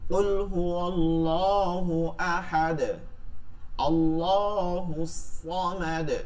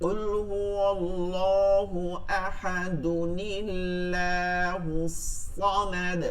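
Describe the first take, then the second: First: It stops after ahad; Allah starts fresh, full. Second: Ahad runs into Allah with an added n, thin. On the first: "আর থাইমা পড়লে এখানে জবর দিব" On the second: "নুন যোগ করে এইটার সাথে পড়তে হবে, তখন এই আল্লাহ শব্দটা বারিক হবে"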